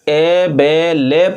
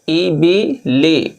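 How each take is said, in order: First: The vowels are said as a mid 'e' sound. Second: The vowels are said as a high 'ee' sound. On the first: The speaker calls it wrong. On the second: The speaker calls it right.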